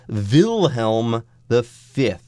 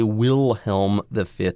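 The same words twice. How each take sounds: First: Wilhelm begins with a V sound. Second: Wilhelm begins with a W sound. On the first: This is how it is said in Germany. "If you're in Germany, that's how you pronounce it" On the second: This is how it is said in America. "That's the kind of thing you would say maybe in America"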